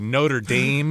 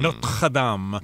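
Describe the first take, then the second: First: It is said with an American accent. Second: It is said with a French accent. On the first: The speaker calls it wrong. "you might hear like Americans say" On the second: The speaker calls it right. "Really French"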